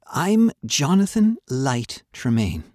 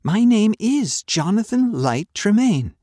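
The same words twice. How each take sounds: First: Put-on boy's earnest voice, slow and higher; Johnny introducing himself. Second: Much higher and louder, defiant; insistent. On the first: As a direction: state the name carefully, slowly. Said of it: "said Johnny". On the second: Acted. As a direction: hammer the name home, My name is Jonathan Light Tremaine. Boy insists on his name.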